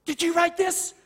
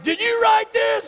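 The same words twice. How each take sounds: First: High-pitched questioning as mom; retold mom asking in a raised pitch; mother's questioning. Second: High, loud retold dad shout; angry father's demand. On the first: Mother questions son over scribbles. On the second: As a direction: shout it slowly as an accusing dad. Angry father confronts his son.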